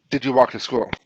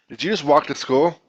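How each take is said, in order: First: Said in the usual way. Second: A question that climbs on "school"; rising question tone. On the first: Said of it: "Instead of just". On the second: Shown as a demonstration. Teacher demonstrating an auditory clue in English, rising question tone on "school". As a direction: lift the pitch at the end on "school". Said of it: "changes in our, in our pitch".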